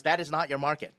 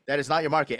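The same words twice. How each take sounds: First: Said in the usual way. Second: Repeated with the weight on "not"; firm repeat, "not" stressed. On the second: Shown as a demonstration. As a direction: lean into "not" the second time.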